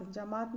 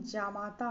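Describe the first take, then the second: First: जमात ending on a T; wrong clipped ending. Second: जामाता ending on long AA; correct long ending. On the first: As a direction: say जमात as "ja-maat". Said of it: "नहीं". (जमात, अंत में केवल "त") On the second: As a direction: say जामाता as "jaa-maa-taa". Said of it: "होता है". (जामाता, अंत में लंबा "ता") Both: Shown as a demonstration.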